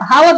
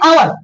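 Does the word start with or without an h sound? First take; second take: with h; without h. First: The word begins with an h sound. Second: The word begins with a vowel, no h. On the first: The speaker calls it wrong. "मैंने इसको पहले जब मैं छोटा था पढ़ता था, हावर पढ़ा था" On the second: The speaker calls it right. "इसे अब समझ में आया कि इसे पढ़ते हैं आवर"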